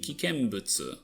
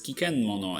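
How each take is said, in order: First: The word ends with the syllables 'butsu'. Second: The word ends with the syllables 'mono'. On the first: The speaker calls it right. "it's supposed to be kikenbutsu" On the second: The speaker calls it wrong. "it says kikenmono"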